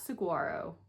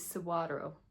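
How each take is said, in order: First: The middle consonant is a hard G sound. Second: The middle consonant is a W sound. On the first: The speaker calls it wrong. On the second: The speaker calls it right. "So the G is a W"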